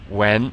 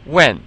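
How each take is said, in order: First: The pitch rises through the word. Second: The pitch falls through the word. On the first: "beginning with the second tone" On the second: "and then the fourth tone"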